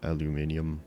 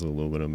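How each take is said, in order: First: "aluminium" said al-yu-MIN-i-um; British pronunciation. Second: "aluminum" said a-LOO-mi-num; American pronunciation. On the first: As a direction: say "aluminium" with five syllables. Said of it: "aluminum and not aluminium". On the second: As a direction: say "aluminum" with four syllables, no i before num. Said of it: "this is aluminum and not aluminium". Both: Shown as a demonstration.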